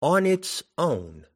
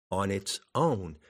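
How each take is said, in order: First: Slow, lifted reading of "On its own" as poetry; reciting the verse line. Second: Soft "On its own" with the weight landing on "own"; stress on own. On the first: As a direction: recite "On its own" slowly and higher, leaning on "On". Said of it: "I'll give you an example of one". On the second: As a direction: lean gently into "own" and let it fall. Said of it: "You emphasize the word own". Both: Shown as a demonstration.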